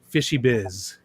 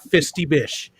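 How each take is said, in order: First: The sounds come out as fishy biz. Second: The sounds come out as fisty bish. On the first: The speaker calls it right. "If I slow down, it's fishy biz" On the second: The speaker calls it wrong. "It's not fisty bish"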